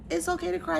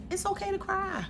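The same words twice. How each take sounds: First: Said in the usual way. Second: Higher, soft and gentle; tender reassurance. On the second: Real, not acted. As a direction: comfort them softly. Comforting the viewer.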